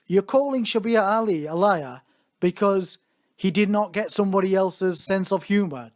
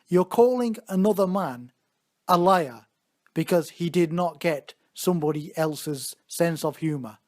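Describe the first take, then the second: First: It is said at normal speed. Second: It is said slowly and deliberately.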